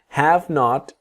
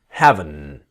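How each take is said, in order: First: Not is said as a full separate word. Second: It is quickly contracted with the t dropped.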